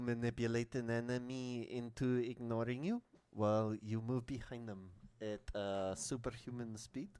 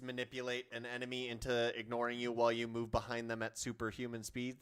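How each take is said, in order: First: It is read in a put-on French accent. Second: It is read in the speaker's ordinary accent.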